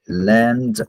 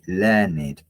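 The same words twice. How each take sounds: First: The word is said with one syllable. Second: The word is said with two syllables. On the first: It describes acquiring knowledge in the past. "Here, learned is a verb" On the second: It describes a highly educated person. "when you use it like an adjective, you say learned"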